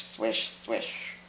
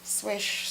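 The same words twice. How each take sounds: First: Breathy whispered swish, swish. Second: Said in the usual way. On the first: Acted. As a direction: whisper the swishes like hips swaying. Narrating hips swinging.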